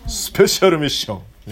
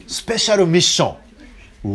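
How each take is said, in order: First: A light cartoonish hero voice on スペシャルミッション; anime hero voice. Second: Said in the usual way. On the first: Shown as a demonstration. (軽く漫画のヒーローっぽい声) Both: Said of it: "そんな漫画の声で言うなよ".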